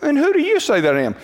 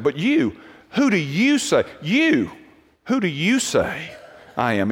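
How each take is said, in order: First: Quick, higher-pitched offhand question; breezy, unemphatic discussion tone; casual reading. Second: Each "you" hit hard and set apart; deliberate, pointed challenge leaning on "you"; emphatic, personal. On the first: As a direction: toss the question out lightly in one run. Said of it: "That's how we kinda read it". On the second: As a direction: break it up with pauses, pointing at "you". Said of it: "this is how we'd say it". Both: Shown as a demonstration.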